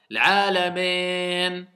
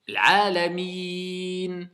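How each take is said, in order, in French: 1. La dernière voyelle se prononce 'eh'. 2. La dernière voyelle se prononce 'ee'. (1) "ils disent eh"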